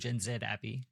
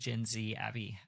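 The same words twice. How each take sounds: First: The letter Z is pronounced 'zed'. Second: The letter Z is pronounced 'zee'. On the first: This is the Australian way of naming the letter. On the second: This is the American way of naming the letter.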